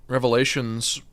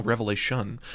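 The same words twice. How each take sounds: First: "Revelations" said with a final s; "Revelations", plural ending on the book name; wrong name. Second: "Revelation" said with no final s; "Revelation", singular and slightly softer; corrected name. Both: Real, not acted. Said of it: "or no, Revelation".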